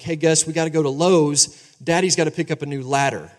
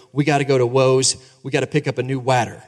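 First: Said in the usual way. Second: Lowe's and ladder said as "Woes" and "wadder"; child's W for L. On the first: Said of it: "I'd go up to Gus and say something like". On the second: Retold or imitated. Father retelling his son saying Lowe's and ladder with a W. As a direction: swap the L in Lowe's and ladder for a W, like a small boy. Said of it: "he would say his L's wrong".

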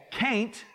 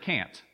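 First: Can't drawn out as Southern "caint"; thick Southern drawl. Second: Said in the usual way. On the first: Shown as a demonstration. Preacher showing the congregation Southern speech, thick drawl on can't. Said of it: "from my thick Southern drawl". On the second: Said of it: "instead of can't".

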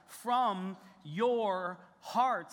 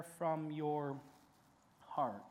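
First: "from your hearts" very slow and deliberate, stress on "from"; emphasized phrase. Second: "from your heart" drawn out, softer, falling on "heart"; quiet key phrase. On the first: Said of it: "is emphasized". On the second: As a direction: set "from your heart" apart, soft and slow. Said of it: "There's key words there". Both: Shown as a demonstration.

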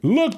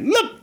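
First: Said in the usual way. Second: Much higher, exasperated "Look"; mad exclamation. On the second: Acted. Healed man fed up with his questioners, mad outburst. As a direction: blurt it high, acting fed up. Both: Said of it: "He get, get mad".

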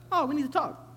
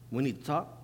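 First: Ominous tone. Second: Lower, softer "We need to talk", level and plain; low flat reading. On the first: Reading the same text as a scary message, high "Oh". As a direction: swing the "Oh" up high, then say "we need to talk". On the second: Reading a text message, low calm tone. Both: Retold or imitated. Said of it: "discerning the voice".

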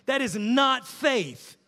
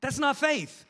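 First: Not stressed, slow and louder; slow, emphatic. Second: Said in the usual way. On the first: Real, not acted. Preacher hammering home to the congregation that this is not faith. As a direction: lean hard on not, slowly.

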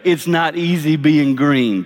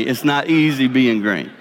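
First: Each word drawn out and leaned on; deliberate, weighty delivery; slow emphatic quote. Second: Lower, intimate restatement; softer confiding repeat. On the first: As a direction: land the Kermit line slowly. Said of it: "Kermit the Frog said it first". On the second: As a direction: lower and quieter, like a confession. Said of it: "Trust me". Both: Shown as a demonstration.

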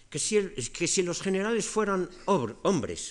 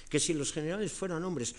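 First: Cleón gritando alto y fuerte en la asamblea; forma muy fuerte de hablar. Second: Said in the usual way. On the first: Retold or imitated. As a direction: imitando a un demagogo que grita "que si los generales". (arenga alta y fuerte, imitada) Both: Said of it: "una manera muy fuerte de hablar".

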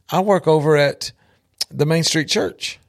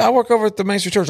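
First: Said in the usual way. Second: Said again higher and fast, pressing on "work"; "work" stressed in a brisk second telling; repeated with emphasis. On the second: Retold or imitated. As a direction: repeat it pointedly, as if he missed it.

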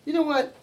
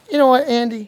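First: Said in the usual way. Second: Louder, more pointed call; louder repeat. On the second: Shown as a demonstration. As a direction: put more push on it.

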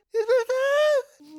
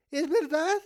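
First: Very high, loud, drawn-out wail; horrified wail. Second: Anxious question, near usual volume; dawning disbelief. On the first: Child realizes dad means it, horrified wail. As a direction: stretch the question into a slow, horrified cry. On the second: Child asks dad if the gift cut is real, dawning disbelief. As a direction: ask it with dawning dread. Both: Acted.

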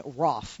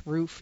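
First: ROFF with a short open vowel, like "off"; correct surname pronunciation. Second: ROOF with a long "oo", like a house roof; mistaken surname pronunciation. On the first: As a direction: say Roff to rhyme with "off". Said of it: "it's pronounced Roff". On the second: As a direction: say Roof just as spelt, long "oo". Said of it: "not Roof". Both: Shown as a demonstration.

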